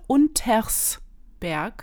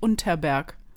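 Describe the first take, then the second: First: An s sound comes before 'berg'. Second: No s sound comes before 'berg'. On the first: The speaker calls it right. "Thema heute Untersberg" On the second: The speaker calls it wrong. "nicht Unterberg; wir haben ein S vergessen mitzusprechen"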